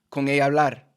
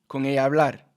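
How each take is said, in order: No difference in how they are said.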